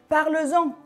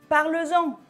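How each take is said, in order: No difference in how they are said.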